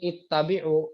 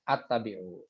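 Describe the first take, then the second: First: The word begins with an i vowel. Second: The word begins with an a vowel. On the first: The speaker calls it right. "dibaca di sini ittabi'u" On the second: The speaker calls it wrong. "atau attabi'u"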